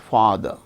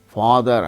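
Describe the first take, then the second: First: The final r sound is not pronounced. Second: The final r sound is pronounced, linking onward. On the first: The word is said on its own. "The word ending ra is not pronounced" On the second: A word starting with a vowel follows. "The word ending ra is pronounced here"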